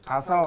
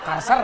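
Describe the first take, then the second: First: The word ends with an L sound. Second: The word ends with an R sound. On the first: The speaker calls it right. "Bukan Kalser" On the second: The speaker calls it wrong. "harus ngomong Kalsel jadi Kalser"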